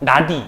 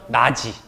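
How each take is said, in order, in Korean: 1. 두 번째 음절은 d 소리로 시작해요. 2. 두 번째 음절은 j 소리로 시작해요. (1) "나디 이렇게 발음해야 돼요 ... 그렇게 발음 안 해요" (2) "나지 이렇게 발음하죠"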